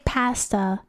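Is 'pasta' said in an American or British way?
British. The word is said with a British vowel. This is how the speaker says it now. "But now, like, I say pasta"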